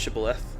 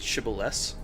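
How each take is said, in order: First: The word is said with a lisp. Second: The word is said without a lisp. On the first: This is the lisped pronunciation. "the lisp was" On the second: This is the intended pronunciation. "is it supposed to be pronounced"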